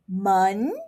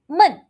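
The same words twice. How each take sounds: First: The pitch rises through the syllable. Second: The pitch falls through the syllable. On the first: It means door. "for tone two, I'm going to say it as" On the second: It means boring. "for tone four, I'm going to say it as"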